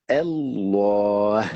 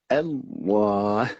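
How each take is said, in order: The two takes are said the same way.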